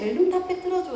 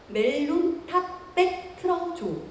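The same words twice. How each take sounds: First: It is spoken in a relaxed, everyday way. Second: Each syllable is carefully and distinctly enunciated. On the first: Today's speaker understands natural speech. "되게 자연스럽게" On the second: The old speaker could only understand precise speech. "아나운서처럼 발음을 해야 됐었죠"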